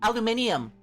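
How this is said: It is said with five syllables, British style. The speaker calls it right. "that's the British one"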